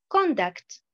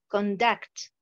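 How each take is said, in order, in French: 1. L'accent est sur la première syllabe. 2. L'accent est sur la deuxième syllabe. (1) "la deuxième colonne, nous avons l'accentuation sur la première syllabe" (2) "la première colonne, pratiquement, j'ai l'accentuation sur la deuxième syllabe"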